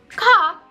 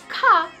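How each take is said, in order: First: The k is released with a strong puff of air. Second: The k is released with a strong puff of air.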